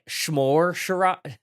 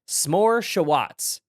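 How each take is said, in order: First: The first word begins with an 'sh' sound. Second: The first word begins with a plain 's' sound. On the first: The speaker calls it wrong. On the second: The speaker calls it right.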